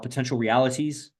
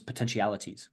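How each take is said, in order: First: It is said slowly, as two separate words. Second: It is said fast, merging into one word.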